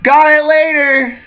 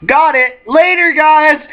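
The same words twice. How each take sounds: First: Carefree call. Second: High, loud breezy shout; carefree call. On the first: Luffy calls out falling, repeated. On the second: Same call repeated. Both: Retold or imitated. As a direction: toss it back while falling.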